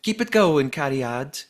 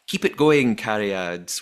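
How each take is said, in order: First: Higher, louder Welsh lilt, Cariad rising at the end; Welsh accent. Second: Light Welsh lilt on Cariad; reading a fan's line in a Welsh accent. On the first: Podcaster redoing Fiona's message in a hammed-up Welsh accent. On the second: Podcaster quoting Fiona's message, mild Welsh accent. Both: Retold or imitated. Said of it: "That's my Welsh accent".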